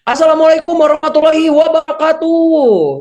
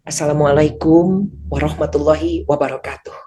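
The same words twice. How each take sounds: First: The greeting is said at a high pitch. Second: The greeting is said at a low pitch. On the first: This tone does not suit an audience of officials. "kan nggak mungkin" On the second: This tone would make young children drowsy. "Kan anak-anaknya pasti bakal nundutan gitu ta"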